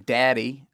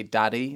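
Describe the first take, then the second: First: "daddy" with a raised American A. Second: "daddy" with a flatter, English short A. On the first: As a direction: say "daddy" with a wide American vowel. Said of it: "instead of saying daddy". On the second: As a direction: say "daddy" a bit more flat. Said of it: "It's a bit more flat". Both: Shown as a demonstration.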